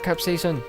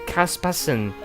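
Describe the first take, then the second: First: The word begins with a 'cap' sound. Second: The word begins with a 'cas' sound. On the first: The speaker calls it right. "Kaspasen is not capsaicin" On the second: The speaker calls it wrong. "you said Kaspasen"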